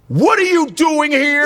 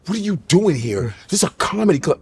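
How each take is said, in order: First: High, drawn-out mock astonishment; high, slow, incredulous question; shocked sister. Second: Questioning sister. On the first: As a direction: act a sister squealing at catching you out. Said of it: "my sister's like". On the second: Retold or imitated. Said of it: "She's like this".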